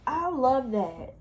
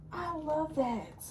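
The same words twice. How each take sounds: First: Said in the usual way. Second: "I love that" said slowly and much softer, almost breathed out. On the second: Shown as a demonstration. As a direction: let "I love that" fade to a slow, hushed murmur. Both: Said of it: "repeated, second fades away".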